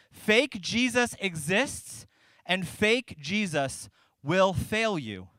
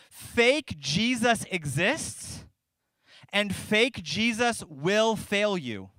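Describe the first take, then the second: First: Said again just as slowly, pausing on each phrase; slow solemn repeat. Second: Each word laid down slowly with long pauses; slow solemn proclamation. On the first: Pastor repeating his point so the church hears it, slow and weighty. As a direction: repeat it slowly and let it land. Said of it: "I hope you hear this". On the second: Pastor proclaiming his main point to the congregation, slow and weighty. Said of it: "Here's what I'm gonna proclaim". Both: Shown as a demonstration.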